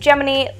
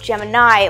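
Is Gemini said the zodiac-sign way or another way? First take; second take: another way; zodiac way. First: It is not said like the zodiac sign. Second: It is said like the zodiac sign. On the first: "why it's pronounced Gemini" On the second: "and not Gemini, like the zodiac sign or the constellation"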